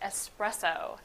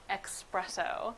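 First: The word starts with 'es', no k sound. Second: The word starts with 'ex', with a k sound. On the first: The speaker calls it right. "the proper pronunciation is" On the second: The speaker calls it wrong. "and not expresso"

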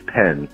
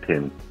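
First: The vowel is an open 'eh' sound. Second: The vowel is a close 'ih' sound. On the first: The speaker calls it right. "It is pen, by the way" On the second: The speaker calls it wrong. "not pin"

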